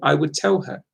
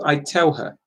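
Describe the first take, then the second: First: I would is said in full, two words. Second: I would is contracted to a single syllable.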